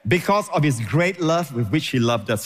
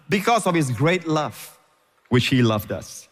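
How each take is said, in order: First: Said in the usual way. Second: "Because of His great love" slow, letting each word land; unhurried. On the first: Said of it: "Stop there for a while. Don't rush". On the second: Shown as a demonstration. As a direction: take your time over it. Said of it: "Don't rush".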